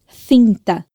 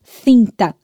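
First: Cinta with th between teeth again; Spanish lisp. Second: Cinta with tongue between teeth, th sound; Spanish lisp. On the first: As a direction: say Cinta as thinta, lisped. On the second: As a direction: say Cinta as thinta. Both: Shown as a demonstration. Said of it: "colocar a língua entre os dentes".

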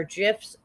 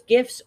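First: "gifs" with a soft G, like "jifs". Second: "gifs" with a hard G as in gift. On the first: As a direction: say "gifs" starting with the J of jet. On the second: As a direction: say "gifs" starting with the G of go. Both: Shown as a demonstration. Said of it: "all those gifs or gifs".

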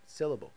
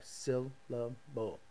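First: Said in the usual way. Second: "syllable" slowed and chopped into three beats, syl-la-ble; beat out each syllable. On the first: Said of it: "So, like, syllable, like that, bam". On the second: Shown as a demonstration. Teaching the game trick, slow syllable-by-syllable demo. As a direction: clap out "syllable" slowly, one beat per part. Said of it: "like that, bam, bam, bam".

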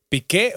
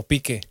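First: "Piqué" stressed on the final é; stress on last syllable. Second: "Pique" stressed on the opening Pi; stress on first syllable. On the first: Asking how the name goes, "Piqué" with end stress. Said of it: "tiene acento en la E". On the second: Offering the other reading, "Pique" with front stress. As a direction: say "Pique" as PÍ-que, unaccented ending. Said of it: "¿Piqué o Pique?". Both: Shown as a demonstration.

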